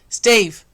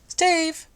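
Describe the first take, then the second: First: It is said in a dark, deep voice. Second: It is said in a light, sweet voice. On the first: The call is meant to be listened to. The speaker calls it right. "I've got to go dark and deep" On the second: The call gets no attention. The speaker calls it wrong. "just doing a nice lady voice doesn't work"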